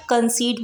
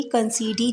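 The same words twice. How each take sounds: First: Said in the usual way. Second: कंसीडी with a sounded final ee; wrong pronunciation. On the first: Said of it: "इसको कंसीड बोलेंगे". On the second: Shown as a demonstration. Teacher showing students the wrong way, कंसीडी with a final ee. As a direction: say कंसीडी ending on a clear ee. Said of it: "कंसीडी नहीं बोलेंगे".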